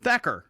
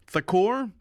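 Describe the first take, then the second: First: Thacker said THACK-er, settled; corrected pronunciation. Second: Thakur as thuh-KOOR, rising, unsure; tentative Thakur said thuh-KOOR; guessed pronunciation. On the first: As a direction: land on Thacker with a fall. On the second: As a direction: try Thakur as a question. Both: Real, not acted.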